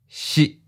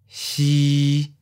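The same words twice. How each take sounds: First: The pitch is mid and cut off abruptly. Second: The pitch stays level at mid height. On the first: "Mid stop. Fourth tone" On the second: "Mid flat. Seventh tone"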